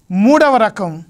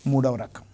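First: Louder and higher, calling out the heading; loud announcement. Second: Soft close. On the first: Preacher to congregation, announcing the third type, loud and high. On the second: Preacher to congregation, wrapping up the third type, soft and low. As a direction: lower and softer, letting the heading settle. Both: Acted.

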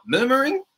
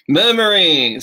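First: High, sharply rising question on "Murmuring"; puzzled query. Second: "Murmuring" said louder and falling, stressed on the first syllable; word demo. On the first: Real, not acted. Teacher queries a student's word choice, rising in surprise. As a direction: ask "Murmuring?" back in disbelief. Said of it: "你是说". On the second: Shown as a demonstration. Teacher presents "Murmuring" to the class, loud and falling. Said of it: "是不是这样子".

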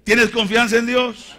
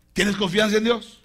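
First: High, very loud shouted question; insistent shout. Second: Raised, higher-pitched question; firm challenge. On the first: Preacher pressing the believer about trust, insistent shout. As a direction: demand an answer at full voice. Repeats challenge louder, second take. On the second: Preacher testing the believer's trust in God, firm challenge. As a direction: put the question loudly and firmly. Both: Acted.

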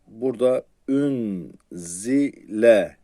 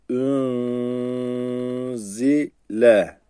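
First: Said in the usual way. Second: Ün held and nasalised, zile stressed in Quran reading; tajwid recitation. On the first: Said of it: "tecvizsiz okunuşu". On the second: Shown as a demonstration. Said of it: "Tecvidli okunuşunu yapayım".

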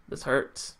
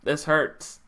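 First: Whispered, much softer, voice dropping away; heartbroken whisper. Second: Voiced again but still much softer and lower; quiet hurt. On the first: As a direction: barely breathe it out, hurt. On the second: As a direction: say it again quietly, heart sinking. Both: Real, not acted. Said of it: "I'm emotional now".

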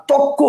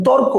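First: তক্ক with a doubled k, no r; assimilated pronunciation. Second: Said in the usual way. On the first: Shown as a demonstration. Teacher showing how torko changes, assimilated pronunciation. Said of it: "পরে হয়ে গেছে ক আর ক". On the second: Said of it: "প্রথমে ছিল র আর ক".

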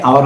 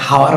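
First: আওয়ার starting on the open vowel; silent h. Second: হাওয়ার with an audible first h; h sounded. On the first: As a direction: say আওয়ার with no h at the front. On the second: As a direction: breathe out the h that opens হাওয়ার. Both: Shown as a demonstration. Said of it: "H O ইউ R".

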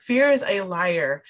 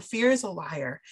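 First: "Fear is a liar" slowed and leaned on, louder; preacher's emphatic repeat of "Fear is a liar". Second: Said in the usual way. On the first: Shown as a demonstration. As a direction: drive the phrase home slowly.

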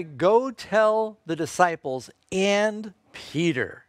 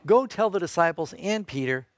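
First: "Go tell the disciples and Peter" drawn out slowly, leaning on "Peter"; slow stressed quote. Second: Said in the usual way. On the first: Shown as a demonstration. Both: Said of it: "Notice who he specifically mentions".

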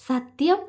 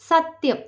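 First: Wide-eyed question. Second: സത്യം said higher with a falling, sure tune; a confident answering സത്യം, falling at the end; firm promise. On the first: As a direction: ask സത്യം in wonder, lifting at the end. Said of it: "അവൾ വിടർന്ന കണ്ണോടെ ചോദിച്ചു". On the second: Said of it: "അവനും പറഞ്ഞു". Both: A narrator's reading.

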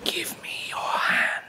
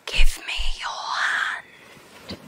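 First: Mocking whisper. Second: Breathy slow whisper, pulling him in; eerie whisper. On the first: Man mimics the mermaid's whisper, mocking. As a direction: imitate her slow eerie whisper. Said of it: "Like that?". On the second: Acted. Mermaid whispering to the man on the rocks, eerie and slow. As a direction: whisper it slowly like a siren's lure. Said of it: "Why are you talking like that?".

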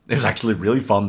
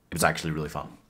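First: Said in the usual way. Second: Soft, lower-pitched confession; low and understated; quiet admission. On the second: Real, not acted. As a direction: admit it quietly, dropping the voice. Quiet admission, then restated normally.

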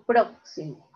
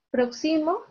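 First: "próximo" with PRO stressed, falling; stress on first syllable. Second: "Próximo" said as prox-SI-mo, rising; stress moved off first syllable. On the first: Teacher offering the correct "próximo", first-syllable stress. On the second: Teacher offering a wrong option for "Próximo", middle-syllable stress. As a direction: wrongly put the weight of "Próximo" on XI. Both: Shown as a demonstration. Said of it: "Yo digo próximo".

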